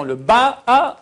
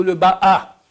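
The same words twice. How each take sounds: First: "Ba'a" with Ba held and stressed; accent on first syllable. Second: "Ba'a" with the second a stressed; accent on last syllable. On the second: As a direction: land on the end of "Ba'a". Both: Shown as a demonstration. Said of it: "où tu mets l'accent".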